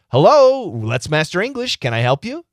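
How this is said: It is said warmly, with an audible smile. The speaker calls it right. "You can hear my smile"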